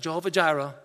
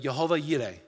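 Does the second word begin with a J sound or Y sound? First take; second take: J sound; Y sound. First: The second word begins with a J sound. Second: The second word begins with a Y sound. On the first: The speaker calls it wrong. "Not Jehovah Jireh" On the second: The speaker calls it right. "but Jehovah Yireh. That's the pronunciation for how it's to be said"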